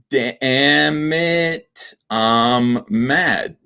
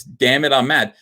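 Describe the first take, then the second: First: DAMN IT, I'M MAD stretched out very slowly; slow, syllable-by-syllable sounding out; drawn out. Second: Said in the usual way. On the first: Shown as a demonstration. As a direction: drag out each syllable to show the palindrome. Spells palindrome out slowly.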